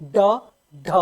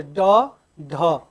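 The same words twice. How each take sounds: First: ड and ढ flicked as ड़ and ढ़; thrown-tongue flap on ड and ढ; flapped retroflex sounds. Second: Easy ड and ढ, tongue up on the palate without sticking; unforced ड, then ढ; relaxed retroflex stops. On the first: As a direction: catch the tongue, then fling it forward on ड, ढ. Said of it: "फिर जीभ को फेंका जाता है बाहर". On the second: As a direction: say ड, ढ as plain unflapped stops. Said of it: "आराम से". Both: Shown as a demonstration.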